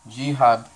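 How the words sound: The word is said with a Spanish pronunciation. "En español es como jihad"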